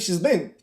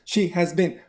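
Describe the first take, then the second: First: The auxiliary is contracted onto the pronoun. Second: The auxiliary is said in full, uncontracted. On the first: The speaker calls it right. "People say she's been" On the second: The speaker calls it wrong. "But nobody says that"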